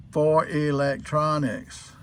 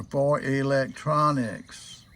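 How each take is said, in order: First: Slow, leaning on "for electronics"; stressed phrase. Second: Very slow "for electronics", stress on "for"; slower emphatic repeat. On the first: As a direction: spell out "for electronics" slowly, stress on "for". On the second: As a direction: repeat "for electronics" slowly to make the point. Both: Shown as a demonstration.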